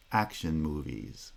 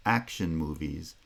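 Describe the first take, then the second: No difference in how they are said.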